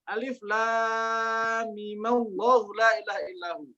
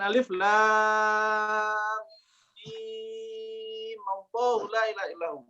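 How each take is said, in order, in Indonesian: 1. Vokal pada mim dibaca pendek. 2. Vokal pada mim dibaca panjang.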